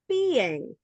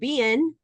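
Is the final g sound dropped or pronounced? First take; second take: pronounced; dropped. First: The final g sound is pronounced. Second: The final g sound is dropped. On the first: The speaker calls it right. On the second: The speaker calls it wrong.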